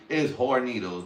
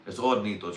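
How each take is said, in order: First: "Hornitos" with a sounded H at the front; pronounced H. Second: "Hornitos" with the H dropped; silent H. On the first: Insisting on his own way, "Hornitos" with H sounded. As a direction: put a clear H on "Hornitos". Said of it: "That's how I'm gonna say it". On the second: Correcting the brand name "Hornitos", H left silent. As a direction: start "Hornitos" on the vowel, no H. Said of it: "You don't pronounce the H". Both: Shown as a demonstration.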